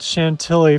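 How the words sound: The word is pronounced the American way. The speaker calls it wrong. "After pronouncing it Chantilly for about one hundred thousand times"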